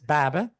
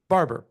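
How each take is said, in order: First: It is said in a Boston accent. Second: It is said in a California accent. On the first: "in Boston it's baba" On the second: "California barber"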